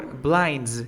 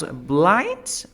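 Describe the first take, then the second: First: Second blinds said with an audible D before the final z; D sounded. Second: First blinds said with the D dropped, as blines; D left out. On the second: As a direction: say blinds without its D sound. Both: Shown as a demonstration. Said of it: "Did she pronounce blinds or blinds?".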